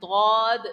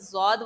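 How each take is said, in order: First: The word begins with a D-like sound. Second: The word begins with a Z-like sound. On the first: This is how native Arabic speakers say it. The speaker calls it right. "अहले अरब जो लोग हैं वो लोग पढ़ते हैं दौद" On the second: Native Arabic speakers do not say it this way. The speaker calls it wrong. "जौद वो नहीं पढ़ते"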